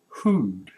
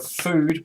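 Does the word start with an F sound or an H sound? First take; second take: H sound; F sound. First: The word starts with an H sound. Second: The word starts with an F sound. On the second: "we don't have F sound"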